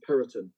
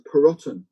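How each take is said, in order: First: The ending is softened to a light ton sound. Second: The ending is said fully, like the word rotten. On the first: This is how most people now say it. "unsure about whether to say the rotten or not. So it normally becomes Peroton" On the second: This is the family's original way of saying it. "I've dragged up through North London, so it's Perotten"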